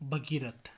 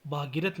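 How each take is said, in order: First: Said in the usual way. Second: भागीरथ with long भा; mispronunciation. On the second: Shown as a demonstration. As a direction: open the first vowel of भागीरथ to aa. (भागीरथ, लंबा भा) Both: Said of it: "नहीं".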